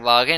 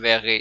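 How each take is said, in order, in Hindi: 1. पहला स्वर खुला 'ah' जैसा है। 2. पहला स्वर ऊमलाउटेड 'eh' जैसा है। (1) "वागे नहीं बोलना" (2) "इश वैगे"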